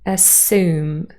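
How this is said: The s is followed directly by the vowel. "general American pronunciation with yacht dropping"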